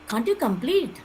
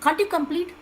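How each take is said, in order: First: It sounds harsh and reproachful, like a rebuke. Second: It sounds like a plain, neutral question. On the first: The speaker is telling the listener off. "I am scolding you only" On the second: The speaker is only asking. "I am questioning only"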